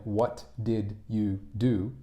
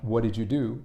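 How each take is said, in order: First: "What did you do" slow, every word separate; pronounced as written. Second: "What did you do" blended into one quick connected chunk; common-speech pronunciation. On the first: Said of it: "which is how it's written". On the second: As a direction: run "What did you do" together, words reduced and linked. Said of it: "which is pronounced". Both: Shown as a demonstration.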